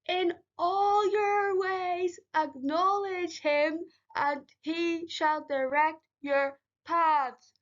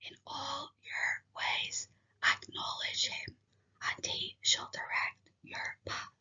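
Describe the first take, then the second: First: It is shouted very loudly. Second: It is said very quietly.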